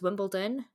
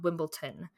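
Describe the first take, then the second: First: The last syllable begins with a d sound. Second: The last syllable begins with a t sound. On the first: The speaker calls it right. "it's Wimbledon" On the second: The speaker calls it wrong. "There's no tea in that one"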